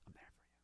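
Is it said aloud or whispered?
whispered. It is whispered very quietly.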